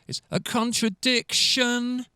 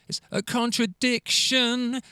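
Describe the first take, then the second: No difference in how they are said.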